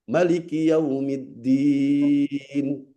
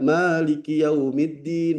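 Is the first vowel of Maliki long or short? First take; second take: short; long. First: The first vowel of Maliki is short. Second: The first vowel of Maliki is long. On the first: This is the reading of the short-vowel reciters. "Yang baca pendek" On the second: This is the reading of the long-vowel reciters. "yang baca panjang"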